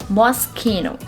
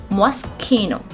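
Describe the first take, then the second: The two takes are said the same way.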